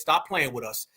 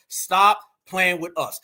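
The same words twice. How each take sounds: First: Said in the usual way. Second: "Stop playing with us" slowed right down, each word pressed; slow emphatic repeat. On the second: Real, not acted. Repeating himself slower to his viewers to drive the point home.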